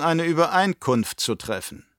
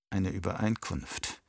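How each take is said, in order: First: Baron's offer. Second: Softer, lower, weighing "Eine Übereinkunft"; inner repetition. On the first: Baron proposing a deal to his nephew, sly and raised. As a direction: offer "Übereinkunft" like a sly bargain, pitched up. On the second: Nephew turning over the uncle's word, softer and lower. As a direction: murmur "Eine Übereinkunft" as a private thought. Feyd repeats it in thought. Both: Acted.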